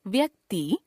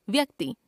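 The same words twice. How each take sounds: First: व्यक्ति ending on long "tee"; mispronounced final vowel. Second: Said in the usual way. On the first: Shown as a demonstration. Teacher showing a common error, व्यक्ति with long final vowel. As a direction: stretch the last vowel of व्यक्ति. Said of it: "अशुद्ध". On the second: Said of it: "शुद्ध".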